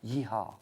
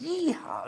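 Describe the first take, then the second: First: It is said flat and weak. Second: It is said loudly, like a cowboy.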